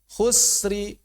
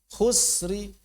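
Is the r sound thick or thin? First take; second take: thin; thin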